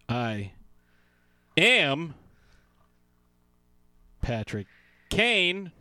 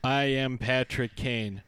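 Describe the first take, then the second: First: It is said with feeling and emphasis. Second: It is said flatly, like reading a card.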